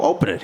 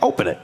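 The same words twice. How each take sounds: First: Insisting, higher. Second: Said in the usual way. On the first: Retold or imitated. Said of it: "I go". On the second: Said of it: "I was like".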